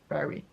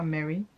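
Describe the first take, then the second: First: The name begins with a B sound. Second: The name begins with an M sound. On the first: The speaker calls it right. "ça se dit Barry" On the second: The speaker calls it wrong. "ça se dit pas Mary"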